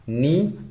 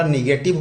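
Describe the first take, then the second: First: "negative" split as नि, long pause, गेटिव; broken in two. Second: Said in the usual way. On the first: Shown as a demonstration. Teacher writing out the second sentence type, word broken by a pause. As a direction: hang on a rising नि, then finish "negative".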